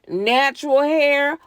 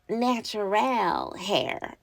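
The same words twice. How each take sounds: First: It is said in her ordinary voice. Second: It is said in a different, put-on voice.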